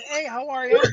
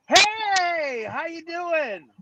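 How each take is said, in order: First: Bright, slightly higher hello back; his own upbeat hello in reply; friendly greeting. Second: High, slow, sing-song hello; a friendly shop owner's high, drawn-out hello; cheery greeting. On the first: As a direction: answer the greeting warmly, a touch raised. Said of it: "I go like this". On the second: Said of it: "this time it was like". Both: Retold or imitated.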